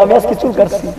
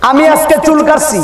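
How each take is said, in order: First: Said in the usual way. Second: High, loud, announcing; loud announcement. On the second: Acted. Preacher to the crowd, loud high announcement. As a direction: call it out high to the hall. Announces haircut, then repeats.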